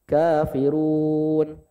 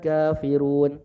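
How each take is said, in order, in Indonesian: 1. Huruf panjang ditahan selama empat ketukan. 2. Huruf panjang ditahan selama dua ketukan.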